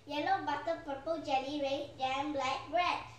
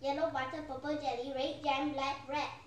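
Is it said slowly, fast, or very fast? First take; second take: fast; very fast. First: It is said quickly. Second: It is said even more quickly.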